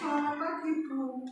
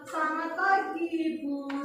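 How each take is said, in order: First: It is said sulkily, with a sour face. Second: It is said warmly, with a smile.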